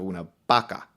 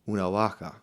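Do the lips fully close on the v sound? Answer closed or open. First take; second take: closed; open. First: The lips close fully on the consonant. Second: The lips do not fully close on the consonant.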